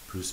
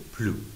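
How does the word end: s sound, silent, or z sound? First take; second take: s sound; silent. First: The word ends with an audible s sound. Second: The word ends on the vowel, no final consonant. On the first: It means more. "اس تلفظ میشه" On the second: It is used in a negative sense. "در حالت منفی اس خونده نمیشه"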